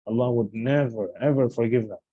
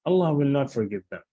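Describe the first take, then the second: First: "never" and "ever" each given their own weight; emphatic negation. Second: Said in the usual way. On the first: Shown as a demonstration. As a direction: lower voice, dwelling on "never, ever". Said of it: "how the emphasis is added". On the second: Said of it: "is one thing".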